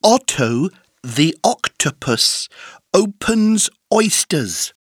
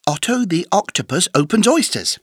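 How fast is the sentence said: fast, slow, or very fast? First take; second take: slow; fast. First: The sentence is said slowly with pauses. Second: The sentence is said fast without pauses.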